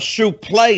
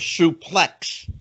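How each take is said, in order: First: The word ends with a 'lay' sound. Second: The word ends with a 'lex' sound. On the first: It is an unusual pronunciation meant to draw attention. "Why do you think he pronounced it like that?" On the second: It is the usual pronunciation. "instead of a suplex"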